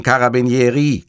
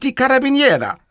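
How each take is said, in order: First: "Carabinieri" ending in a clear -i; corrected word ending. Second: "Carabiniera" ending in -a; wrong word ending. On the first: Montalbano corrects Cattarella, "Carabinieri" ending in -i. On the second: Cattarella garbles the police word, "Carabiniera" ending in -a. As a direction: say "Carabiniera" with a mistaken final a, high-voiced. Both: Acted. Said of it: "Die heißen Carabinieri".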